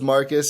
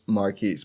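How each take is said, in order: First: The name ends with a short 'kus' sound. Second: The name ends with a long 'keese' sound. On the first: The speaker calls it wrong. "I always thought it was Marcus" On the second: The speaker calls it right. "understood that it is Marquise"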